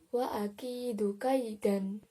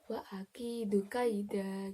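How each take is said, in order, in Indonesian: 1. Kata terakhir berakhir dengan bunyi 'an'. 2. Kata terakhir berakhir dengan 'a' panjang. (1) "contohnya seperti" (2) "jika ada tanda baca wakaf dibaca"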